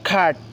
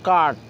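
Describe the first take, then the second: First: The first sound is an aspirated k. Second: The first sound is a plain k. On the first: The speaker calls it right. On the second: The speaker calls it wrong.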